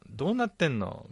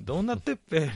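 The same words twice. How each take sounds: First: Said in the usual way. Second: どうなってっぺ with a rural Ibaraki っぺ ending; 茨城弁で「どうなってっぺ」; Ibaraki dialect version. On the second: Retold or imitated. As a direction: switch the question into Ibaraki dialect. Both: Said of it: "みたいな".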